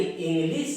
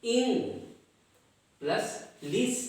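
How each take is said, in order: First: Said in the usual way. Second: "इंग" and "लिस" as separate beats; split into syllables. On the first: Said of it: "यानी इंग्लिश". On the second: Shown as a demonstration. Teacher counting two syllables, "इंग", pause, "लिस". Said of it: "लेकिन इसमें syllable दो हैं".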